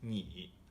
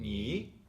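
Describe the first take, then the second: First: The syllable is said with a low tone. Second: The syllable is said with a rising tone. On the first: "normally you say uh, you is ni" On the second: "the rising"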